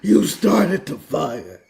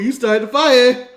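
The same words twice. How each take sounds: First: It sounds deep and menacing. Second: It sounds light and joking.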